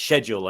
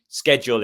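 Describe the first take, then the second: First: It is said with a British pronunciation. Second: It is said with an American pronunciation. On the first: The speaker calls it right. "it's schedule" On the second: The speaker calls it wrong. "It's not American schedule"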